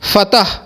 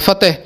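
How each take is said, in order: First: The vowel after the t is 'a'. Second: The vowel after the t is 'e'. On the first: "ज़बर के साथ पढ़ते हैं" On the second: "ते के नीचे ज़ेर करके फ़तेह"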